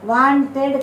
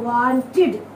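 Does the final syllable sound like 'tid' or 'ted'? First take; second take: ted; tid. First: The final syllable does not sound like 'tid'. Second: The final syllable sounds like 'tid'. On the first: The speaker calls it wrong. "Wanted కాదు" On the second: The speaker calls it right.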